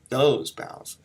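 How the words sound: The first word carries the stress. The speaker calls it wrong. "I'm not hitting those bows"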